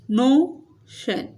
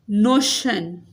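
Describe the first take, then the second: First: notion split slowly, stressed "नो", pause, "शन"; slow syllable-by-syllable notion with weight on "नो". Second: Said in the usual way. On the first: Shown as a demonstration. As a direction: break notion in two, stretching the "नो". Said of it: "नो पे क्या है? Stress है". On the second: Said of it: "नो पे क्या है?".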